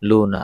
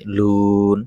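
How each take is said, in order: First: The word ends with a short a vowel. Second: The word ends on the n consonant. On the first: The word is read in the flow of the verse. "নুন জবন্না" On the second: The reader stops at the end of the verse. "এই লামের অক্ফ হবে নুনের সাথে লুন"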